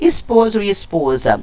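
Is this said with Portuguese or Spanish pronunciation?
Portuguese. It is said with Portuguese pronunciation.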